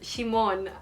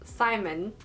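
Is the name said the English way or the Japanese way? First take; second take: Japanese; English. First: The name is said the Japanese way. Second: The name is said the usual English way.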